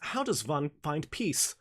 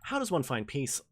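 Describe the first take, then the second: First: It is spoken with a put-on German accent. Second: It is spoken in the speaker's plain accent. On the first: "let me just say that without the German accent" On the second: "without the German accent"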